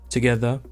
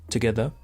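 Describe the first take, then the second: The two takes are said the same way.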